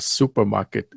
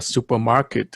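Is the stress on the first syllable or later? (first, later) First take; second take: first; later. First: The stress falls on the first syllable. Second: The stress falls after the first syllable. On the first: The speaker calls it right. "thành một từ thì trọng âm ở chữ su" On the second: The speaker calls it wrong. "không phải là supermarket"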